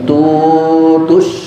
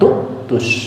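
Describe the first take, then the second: First: A w sound replaces the glottal stop in the middle. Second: A glottal stop sits in the middle of the word. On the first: This is how readers trained in grammar or the seven readings say it. "Hamzahnya jadikan waw" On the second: This is the ordinary reading. "bacaan kita normal wala tu'tus"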